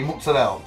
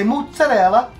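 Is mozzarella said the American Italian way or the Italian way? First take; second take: American Italian; Italian. First: It is said with an American Italian pronunciation. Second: It is said with a pronunciation from Italy. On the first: "only American Italians say mozzarella" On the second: "Over there, they say mozzarella"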